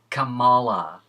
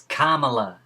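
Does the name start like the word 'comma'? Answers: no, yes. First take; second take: no; yes. First: The name does not begin like 'comma'. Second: The name begins like the word 'comma'. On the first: The speaker calls it wrong. "not Kamala" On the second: The speaker calls it right. "It's Kamala"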